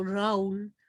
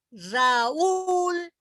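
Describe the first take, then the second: First: Raúl en una sola sílaba, «RAUL»; diptongo incorrecto. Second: Raúl en dos sílabas, ra-ÚL, con la ú aguda; hiato marcado. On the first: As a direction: carga la a de Raúl y deja la u débil. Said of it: "no digo Raúl". (Raúl mal dicho, sin acento en la ú) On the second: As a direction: sube y carga la ú de Raúl. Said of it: "se las pronuncia". (Raúl separando la a de una ú fuerte) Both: Shown as a demonstration.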